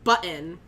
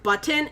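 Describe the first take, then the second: First: The T in the middle is dropped. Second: The T in the middle is clearly pronounced. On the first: "I drop so many T's when I talk" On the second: "It's not button"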